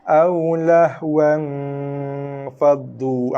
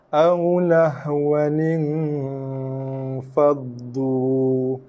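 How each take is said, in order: First: The word ends without the extra 'in' sound. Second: The word ends with an extra 'in' sound. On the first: The speaker calls it wrong. "tu bacaan yang salah lah" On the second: The speaker calls it right. "sekali lagi kita ulangi bacaan"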